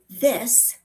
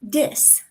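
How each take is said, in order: First: The word begins with a soft TH sound. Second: The word begins with a D sound. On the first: "instead of this" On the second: "the T H sound is often replaced with D's or T's"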